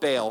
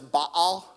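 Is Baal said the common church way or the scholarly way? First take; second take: church way; scholarly way. First: Baal is said the familiar church way. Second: Baal is said the way a linguist taught. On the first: The speaker calls it wrong. "We've been saying it wrong all along if you grew up in church" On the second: The speaker calls it right. "that's the proper way to say it, apparently"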